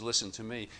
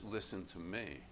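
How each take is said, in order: First: A slightly raised, insistent "Listen to me."; a light hint of a proud man demanding attention; man's demand. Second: "Listen to me." said softer and calmer; a quiet, inviting call to come closer; God's gentle call. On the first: Preacher voicing man insisting on being heard, mildly pushy. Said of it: "Man says". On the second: Retold or imitated. Preacher voicing God calling gently, softer and calm. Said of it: "God says".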